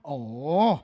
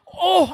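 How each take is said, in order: First: The 'oh' sounds shaky, like someone shivering. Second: The 'oh' sounds full of awe and amazement. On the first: The speaker calls it wrong. "bukan gitu" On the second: The speaker calls it right. "Ini ngomong tentang sebuah keheranan bukan?"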